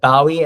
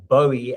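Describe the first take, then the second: First: The first syllable rhymes with cow. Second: The first syllable rhymes with go. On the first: "as in the bow of a boat" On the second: "as in a bow in my hair"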